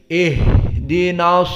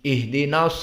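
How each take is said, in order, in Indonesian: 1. Bunyi h berhembus dan ditahan sebentar. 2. Bunyi h dipotong pendek tanpa hembusan napas. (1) "udara keluar dan dan ada jenjang waktu" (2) "Contohnya yang salah. ... Tidak keluar suara dan tidak keluar udara. Dan jadinya cepat"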